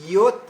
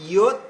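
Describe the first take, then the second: Both takes have the same delivery.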